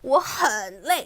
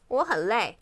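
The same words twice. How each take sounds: First: 很 is said with strong stress. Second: 很 is said lightly, without stress.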